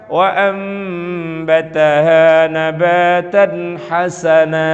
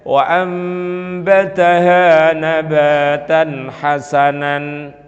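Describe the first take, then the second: First: The last word ends with a long vowel. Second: The last word ends with an n sound. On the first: The speaker calls it right. "Diganti alif berarti dibaca mad" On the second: The speaker calls it wrong. "Enggak boleh kita membaca misalnya"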